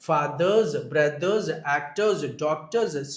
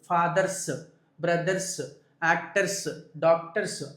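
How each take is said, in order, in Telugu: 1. బహువచన ముగింపులు z లాగా పలకబడతాయి. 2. బహువచన ముగింపులు s లాగా పలకబడతాయి. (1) "అలా చెప్పాలి" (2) "ఇలా చెప్పకూడదు"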